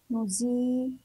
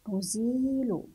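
First: نزيل in two parts, nuzii and lu; نزيل with long zii, then a break; sounded out. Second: Said in the usual way. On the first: Shown as a demonstration. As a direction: pause in نزيل before the final lu. Teacher joins letters in two parts.

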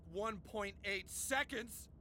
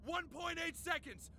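First: Slow, drawn-out brag; low, teasingly slow reveal; smug mock-casual. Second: Pitched-up victory taunt; triumphant gloating. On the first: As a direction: draw out each word to savour the boast. Feigns modesty while bragging to rival. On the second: Acted. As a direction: crow it at your rival. Gloating repeat to rival on phone.

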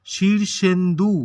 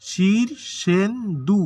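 First: Shirshendu slow, in three linked beats; measured syllables. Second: Shirshendu very slow and higher, three syllables apart. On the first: Teacher introducing a word for syllable counting, slow and measured. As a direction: say Shirshendu slowly and distinctly. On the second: Teacher showing there are three syllables, syllable by syllable. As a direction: stretch Shirshendu into three separated beats. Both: Shown as a demonstration. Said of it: "এখানে হচ্ছে তিনটা দল".

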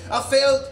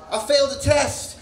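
First: Said in the usual way. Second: I failed a test shouted, louder the second time; raised-voice repeat. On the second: Retold or imitated. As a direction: punch up the repeat.

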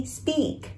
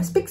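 First: "speak" with long "ee"; English "speak", long falling vowel; correct speak. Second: "speak" with short clipped i; Vietnamese-style "speak", cut short; mispronounced speak. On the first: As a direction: stretch "speak" on a high, soft "ee". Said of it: "Mà nó sẽ là e". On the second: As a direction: say "speak" wrongly as short "spik". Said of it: "Đừng đọc là speak". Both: Shown as a demonstration.

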